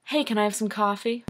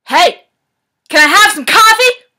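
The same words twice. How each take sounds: First: Said in the usual way. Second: High, very loud scream; all-out bellow. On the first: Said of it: "Doesn't matter what the line is". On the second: Shown as a demonstration. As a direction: bellow it as loud as you possibly can. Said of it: "say it as loud as you possibly can. Bellow".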